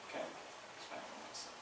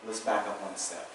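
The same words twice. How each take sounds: First: Whispered. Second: Said in the usual way. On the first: Shown as a demonstration. Teacher whispering the line again to the class.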